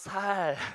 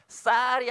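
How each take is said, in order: First: The first consonant is a plain s. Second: The first consonant is a tense s. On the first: "여기 경상도 사람들 어떻게 해요? 쌀이 안 되고 살" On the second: "쌀이 안 되고"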